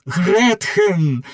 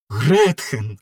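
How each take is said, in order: First: Calling out Гретхен! a bit louder and higher; loudly. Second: Said in the usual way. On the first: Acted. Faust calls out to Gretchen in her cell, louder. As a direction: call Гретхен! across the prison, reaching for her. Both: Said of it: "Фауст голосно".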